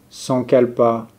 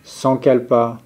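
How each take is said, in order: Both takes have the same delivery.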